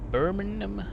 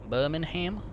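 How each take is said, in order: First: The final syllable is reduced and weak. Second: The final syllable 'ham' is fully pronounced.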